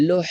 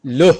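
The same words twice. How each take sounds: First: লোহ with the h squeezed from the throat; pressed throat ha. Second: লোহ with a loud, open-throated h. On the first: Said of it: "গলা চেপে চেপে বের হবে". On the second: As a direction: release the h of লোহ freely from the throat. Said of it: "দুইটাকে একরকম বললে হবে না". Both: Shown as a demonstration. Teacher contrasts the two ha letters for students.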